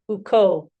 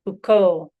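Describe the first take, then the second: First: The two vowels merge into one long vowel. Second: The same.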